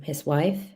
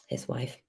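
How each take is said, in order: First: Said in the usual way. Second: Whispered under the breath. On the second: Shown as a demonstration. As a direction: whisper the words his wife. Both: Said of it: "Amanda was good with his wife".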